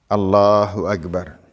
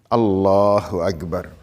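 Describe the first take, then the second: No difference in how they are said.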